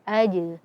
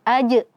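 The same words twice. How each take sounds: First: The j ends with a full released bounce. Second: The j ends in a sharp glottal catch. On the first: The speaker calls it right. "tapi sempurnakan pantulannya" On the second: The speaker calls it wrong. "jangan uh, seakan-akan menambahkan hamzah sukun di akhirnya"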